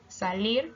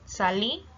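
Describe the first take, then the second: First: The word ends with a pronounced r. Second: The word ends without the final r.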